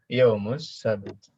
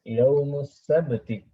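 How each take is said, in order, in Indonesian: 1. Kata terakhir berakhir dengan konsonan mati. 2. Kata terakhir berakhir dengan vokal.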